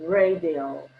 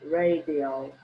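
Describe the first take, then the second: Both takes have the same delivery.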